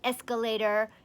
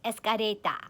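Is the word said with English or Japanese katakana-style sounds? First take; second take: English; Japanese katakana. First: It is said with plain English sounds. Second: It is said with Japanese katakana-style sounds.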